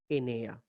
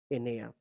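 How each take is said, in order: Both takes have the same delivery.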